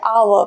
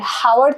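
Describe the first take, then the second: First: The word begins directly with a vowel sound. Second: The word begins with an audible H sound. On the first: The speaker calls it right. "हम बोलते हैं आवर" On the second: The speaker calls it wrong. "हावर तो नहीं बोलते हैं ना हम"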